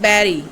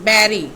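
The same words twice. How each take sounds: The two takes are said the same way.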